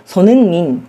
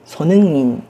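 First: The h is dropped and the words run together. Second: The same.

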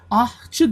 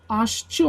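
First: An h sound follows the first vowel. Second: A sh sound follows the first vowel. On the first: The speaker calls it wrong. "H yerine ş harfi kullanacağız" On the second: The speaker calls it right. "H yerine ş harfi kullanacağız"

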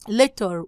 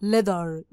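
First: It is said carefully with a clear t sound. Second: It is said quickly with a soft d-like sound.

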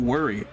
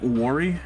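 First: It is said with a plain, ordinary pronunciation. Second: It is said with a Canadian-sounding pronunciation. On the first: The speaker calls it right. "How do you pronounce it? Uh, worry" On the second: The speaker calls it wrong. "like a fucking Canuck"

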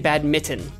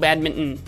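First: It is said without an added N sound. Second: It is said with an added N sound. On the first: "I usually just say badminton" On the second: "I sneak a little N in there, a little badminton"

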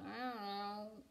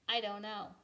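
First: It is mumbled quietly and unclearly. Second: It is proclaimed loudly and clearly.

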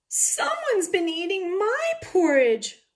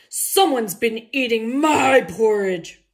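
First: It is wailed in a crying Mama Bear voice. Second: It is roared in a loud Papa Bear voice.

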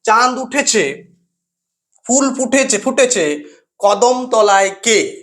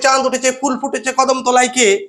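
First: The line is read with short pauses between phrases. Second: The line is read straight through without pauses. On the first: The verse gains rhythm and feeling. The speaker calls it right. "একটা নির্দিষ্ট সময়ের ব্যবধানে আমরা থেমে যাচ্ছি" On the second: The verse loses its feeling and is hard to grasp. The speaker calls it wrong. "আমরা যদি একসাথে পড়ি"

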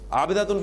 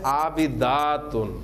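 First: The vowel before the ending is short. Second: The vowel before the ending is long. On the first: The word is singular. The speaker calls it wrong. "अगर आपने इसको आबिदातुन पढ़ लिया तो फिर ये लफ्ज बन जाएगा, वो मानी नहीं होंगे" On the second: The word is plural. The speaker calls it right. "यह है आबिदातुन"

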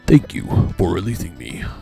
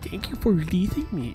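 First: It is said in a deep, manly voice. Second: It is said in a weak, unmanly voice.

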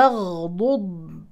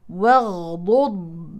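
No difference in how they are said.

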